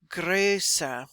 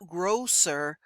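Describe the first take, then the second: First: The first vowel is a rounded ö sound. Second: The first vowel is a plain o sound. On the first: The speaker calls it right. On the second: The speaker calls it wrong. "not grosser"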